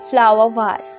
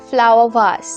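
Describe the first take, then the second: Both takes have the same delivery.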